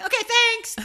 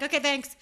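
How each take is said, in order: First: Loud, high-pitched chirpy thanks; too friendly. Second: Said in the usual way. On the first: Retold or imitated. Driver thanking the family blocking her, high and over-friendly. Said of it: "that's even sounded too friendly". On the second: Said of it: "I was not that high pitched voice".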